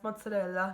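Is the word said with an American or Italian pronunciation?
Italian. It is said with an Italian pronunciation. The speaker calls it right. "that's pronounced mozzarella"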